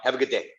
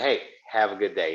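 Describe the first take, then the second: First: It is said in a hard, barking tone. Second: It is said in a soft, caring tone.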